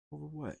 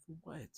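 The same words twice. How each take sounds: First: Said in the usual way. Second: Quiet. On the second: Real, not acted.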